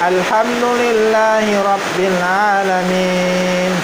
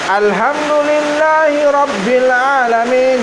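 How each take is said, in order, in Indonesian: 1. Dibacakan dengan tenang dan lembut. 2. Dibacakan dengan keras dan tegas. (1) "Beda ketika kita mengimami sholat di masjid yang bacaannya tenang" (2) "Kalau ini agak tegas"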